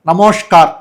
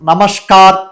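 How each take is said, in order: First: The middle syllable sounds like rounded 'mosh'. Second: The middle syllable sounds like plain 'mas'. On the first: This is how Bengalis say it. "వాళ్ళు ఏమంటారు నమోష్కార్, కొంచెం మో పలికినట్టు ఉంటుంది" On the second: This is how Telugu speakers say it. "మనం నమస్కార్ నమస్కారం అనే మాటను"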